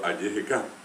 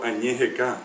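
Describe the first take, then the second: First: The prefix has an oral y sound. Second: The prefix has a nasal ñ sound. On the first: The speaker calls it right. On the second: The speaker calls it wrong. "no puedo decir tampoco"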